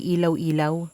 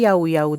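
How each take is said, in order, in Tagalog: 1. Ang bawat kalahati ay nagsisimula sa tunog na 'ee-l'. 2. Ang bawat kalahati ay nagsisimula sa tunog na 'y'. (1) "ang pagkakabasa ko ay ilaw-ilaw" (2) "nung sinearch ko sa Google ay yaw-yaw daw"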